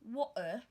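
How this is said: The T is replaced by a glottal stop. "The British says water, glottal stop sound"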